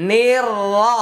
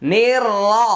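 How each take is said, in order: No difference in how they are said.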